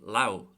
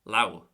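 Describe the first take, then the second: First: The word ends with a W sound. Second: The word ends with a W sound.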